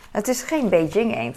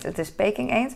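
First: Beijing said as bay-JING, the newer form; modern Beijing name. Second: Put-on Peking said as PAY-king, the older form; old Peking name. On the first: Vlogger correcting the duck's name, saying Beijing the modern way. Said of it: "nu zeg je Beijing". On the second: Vlogger insisting on the duck's name, saying Peking the old way. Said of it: "Peking klinkt meer als mijn accent". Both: Shown as a demonstration.

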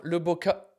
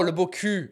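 First: "Le Beau Cup" ending like English cup; misread final word. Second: "Le Beau Cul" with silent l at the end; corrected French reading. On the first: Reading out a restaurant name, misread as cup. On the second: Realising the restaurant's French pun, corrected to cul. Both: Shown as a demonstration. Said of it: "not cup".

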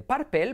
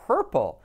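First: "purple" as PAR-pel; Spanish a and e in "purple"; pronunciación errónea. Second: "purple" as PUR-pol, dark final l; pronunciación correcta. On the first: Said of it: "y de purple pasas a". ("purple" mal dicho, «párpel») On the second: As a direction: punch "purple", English r, ending like "pol". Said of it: "pasas a purple". ("purple" fuerte, «pérpol») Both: Shown as a demonstration.

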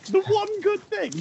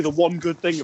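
First: Very high, squeaky mock repeat; incredulous echo. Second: Said in the usual way. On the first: Echoing the friend's remark about babies, squeaky mock disbelief. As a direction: pitch THE ONE GOOD THING way up, amused.

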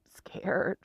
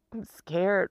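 First: Breathy whisper of scared; a real, frightened whisper; whispered fear. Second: Said in the usual way. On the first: Real, not acted. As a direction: let it slip out as a whisper. Admits fear, repeats word.

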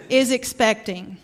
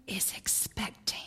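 First: Said in the usual way. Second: Breathy Southern whisper of expecting. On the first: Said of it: "she would whisper". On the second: Retold or imitated. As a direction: whisper it like a discreet Southern mother. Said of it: "she would whisper in her very Southern accent".

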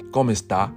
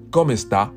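The two takes are said the same way.

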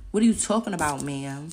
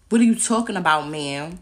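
First: Louder, sharp challenge; indignant demand. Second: Much louder, fierce repeat; angry shout. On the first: Confronting the lawyer in court, indignant. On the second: Confronting the lawyer in court, shouting. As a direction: shout it back at her. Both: Real, not acted.

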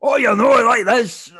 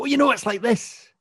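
First: Put-on loud, very high parody Scottish accent; mocking Scottish accent. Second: Much higher, animated Scottish lilt; passionate Scottish accent. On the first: English people repeating it back, exaggerated mock Scottish accent. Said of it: "I get repeated back to me". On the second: Shown as a demonstration. Showing how they speak when passionate, high-pitched Scottish accent. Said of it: "when I speak passionately about something".

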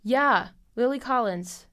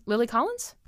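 First: "yeah, Lily Collins" slower, falling and settled; confirmed. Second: Rising, doubtful check of "Lily Collins"; unsure question. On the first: Having looked up the actress's name, confirming it. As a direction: state "Lily Collins" with relief. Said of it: "That's what I thought". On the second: Checking an actress's name for listeners, questioning. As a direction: ask "Lily Collins?" like you are not sure. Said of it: "Hold on". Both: Real, not acted.

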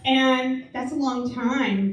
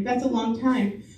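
First: Slow and deliberate, weight on long; slow emphasis. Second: Said in the usual way. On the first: Shown as a demonstration. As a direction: stretch out long time.

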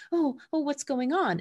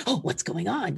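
First: High, startled worried voice; pitched-up fretful pup; anxious dog voice. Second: Easy, unbothered curious dog; laid-back pup voice; casual dog voice. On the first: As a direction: voice the nervous dog asking what's wrong. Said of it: "instant reaction is like". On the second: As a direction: voice the relaxed dog shrugging it off. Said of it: "Lycan's more like". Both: Pretend.

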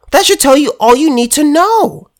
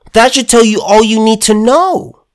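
First: Repeated higher with weight on "know"; emphatic. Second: Said in the usual way. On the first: Shown as a demonstration. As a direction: hammer "know" home, pitched up. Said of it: "repeated higher".

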